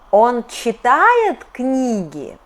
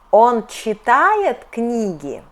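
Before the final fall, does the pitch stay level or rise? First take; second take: rises; rises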